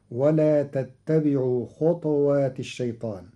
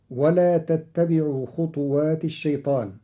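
First: خطوات said khutwat, with sukun on ta; Qalun reading. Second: خطوات said khutuwat, with damma on ta; standard reading. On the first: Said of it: "بإسكان الطاء". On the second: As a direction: voice every vowel of خطوات. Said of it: "قرأ قالون كلمة خطوات". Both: Shown as a demonstration.

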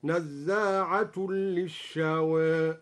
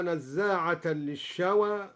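First: "نزاعة" ending in u, nazzaa'atul; very slow recitation, "نزاعة" closing on -tun merged into l. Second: Said in the usual way. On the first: Shown as a demonstration. Sheikh demonstrates the nominative reading, "نزاعة" said nazzaa'atul. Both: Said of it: "برفع نزاعة خبر ثان هكذا".

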